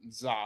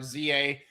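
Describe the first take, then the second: First: The name is said as one syllable. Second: The name is said as two letters. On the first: "Kind of Funny pronounces it Za" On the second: "I think it's called Z A"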